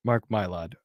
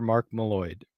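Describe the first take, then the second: First: Mylod said as "MY-lod"; corrected name. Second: Mylod said as "muh-LID"; mispronounced name. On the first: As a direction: say Mylod with a long "my" first syllable. Corrects the name just misread. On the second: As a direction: say Mylod with a weak first syllable, muh-LID. Stumbles over a name, corrects it. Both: Real, not acted.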